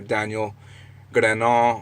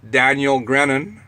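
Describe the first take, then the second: First: The name is pronounced the French way. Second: The name is pronounced the English way. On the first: "that sounds like a French name" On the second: "that would be the, the English pronunciation of his name"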